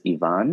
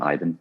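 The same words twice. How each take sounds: First: The name is said the Russian way. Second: The name is said the anglicized way. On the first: This is the original form of the name. The speaker calls it right. "the accurate pronunciation is Ivan" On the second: This is a distorted form of the name. The speaker calls it wrong. "it's become bastardized to just become Ivan"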